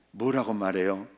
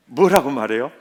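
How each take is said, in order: First: Said in the usual way. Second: 뭐라고 말해요 asked again through a laugh, louder. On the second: Shown as a demonstration. 회중에게 다시 묻는 설교자, 웃으며.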